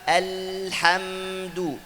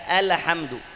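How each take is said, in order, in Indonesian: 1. Bunyi l mengalir sebentar sebelum hamdu. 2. Huruf l dibaca cepat dan dipotong pendek. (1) "Yang betul apa?" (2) "jangan baca alhamdu"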